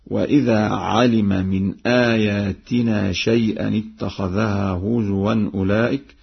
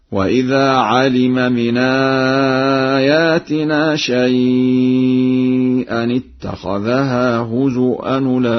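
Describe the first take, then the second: First: Said in the usual way. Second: هزؤا said huzuʔan, chanted slow and high; with hamza. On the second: Shown as a demonstration. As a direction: recite هزؤا with a clear hamza. (هزؤا بالهمز، ترتيل مرتفع) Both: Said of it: "هزؤا بالهمز هكذا".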